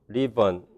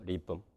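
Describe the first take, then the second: First: A schwa vowel comes before a final n. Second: No vowel; the last syllable is a syllabic m. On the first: "슈아가 있는 어, 리번 이렇게 발음이 되거나" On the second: "실라빅 M 리붐이 되거나"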